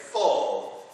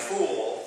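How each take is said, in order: First: "full" stretched slowly toward "foal"; drawn-out OH. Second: "fool" with a long OO vowel. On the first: Showing what girlfriend doesn't say, "full" like foal. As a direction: say "full" with a long O vowel. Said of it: "and she doesn't say full". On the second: Showing what girlfriend doesn't say, "fool" with long OO. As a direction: say "fool" to rhyme with "pool". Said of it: "she doesn't say fool". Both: Shown as a demonstration.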